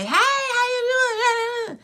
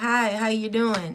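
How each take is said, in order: First: The greeting sounds excited and energetic. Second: The greeting sounds reserved and calm.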